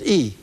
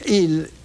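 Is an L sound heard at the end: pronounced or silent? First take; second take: silent; pronounced. First: The word ends without any L sound. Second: The word ends with an audible L sound. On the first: This is how it was said in an earlier generation. The speaker calls it wrong. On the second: This is how it was expected in school. The speaker calls it right.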